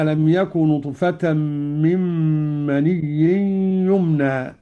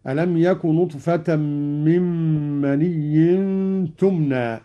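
First: "يمنى" begun with a ya sound; plain ya in "يمنى". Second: "تمنى" begun with a clear ta sound; slow, stressing the ta in "تمنى". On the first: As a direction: recite "يمنى" with y. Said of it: "قوله تعالى". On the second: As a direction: say "تمنى" with t, not y. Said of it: "قرأ قالون بالتاء على التأنيث هكذا". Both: Shown as a demonstration.

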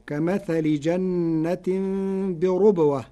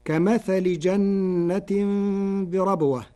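First: "بربوة" with a rounded u after the r, birubwa; slow recitation, r in "بربوة" with damma; Warsh reading with u. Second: "بربوة" with an open a after the r; slow recitation, "بربوة" as birabwa; recited verse, standard reading. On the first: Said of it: "بضم الراء فتصير". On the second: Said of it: "قرأ ورش كلمة بربوة". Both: Shown as a demonstration.

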